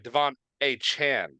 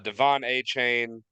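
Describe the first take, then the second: First: The last syllable sounds like 'chan'. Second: The last syllable sounds like 'chain'. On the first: The speaker calls it right. "is actually how you pronounce his name" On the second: The speaker calls it wrong. "or sorry"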